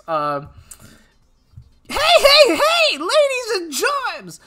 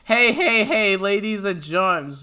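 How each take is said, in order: First: It is said in a put-on cartoon voice. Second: It is said in the speaker's own voice.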